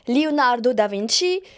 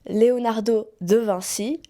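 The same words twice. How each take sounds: First: The name is pronounced with an Italian accent. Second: The name is pronounced with a French accent. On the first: "I'm gonna pronounce it in Italian" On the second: "then in French"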